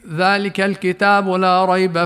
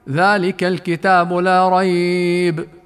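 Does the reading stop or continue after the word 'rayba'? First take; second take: continues; stops. First: The reading runs on without stopping after 'rayba'. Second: The reading stops after the word 'rayba'. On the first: The phrase flows straight into what follows. "تقرأ كلها بنفس واحد" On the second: The phrase ends at 'rayba' and the next part starts anew. "الوقف على كلمة ريب"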